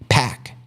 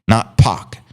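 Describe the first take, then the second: First: It is said like the word 'pack'. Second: It is said like the end of a rapper's name. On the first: The speaker calls it right. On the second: The speaker calls it wrong. "used to pronouncing Tupac as Pac"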